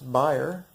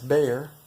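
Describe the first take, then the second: First: The name gets a German pronunciation. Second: The name gets an American pronunciation. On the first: "it is actually pronounced Bayer" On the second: "if you're American, you probably know them as Bayer"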